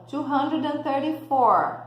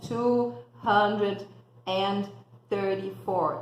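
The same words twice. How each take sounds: First: "two hundred and thirty-four" in one smooth run; joined up. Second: "Two hundred", "and", "thirty-four" broken into separate pieces; choppy. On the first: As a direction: link it all together, the right way. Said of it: "Eu tenho que juntar". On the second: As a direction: say it chopped up, the wrong way. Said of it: "não falo picadinho". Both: Shown as a demonstration.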